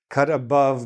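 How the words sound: The word above carries the stress. It says clearly where to make the cut. "I'm going to stress the above"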